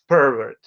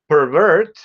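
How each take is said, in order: First: The stress is on the first syllable. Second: The stress is on the second syllable. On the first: It is used as a noun. "the noun is pervert" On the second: It is used as a verb. "the verb pervert"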